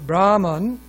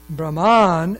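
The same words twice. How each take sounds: First: The accent is on the first syllable. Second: The accent is on the second syllable. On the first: It means a prayer. "accented on the first syllable" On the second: It means one who prays. "accented on the second syllable"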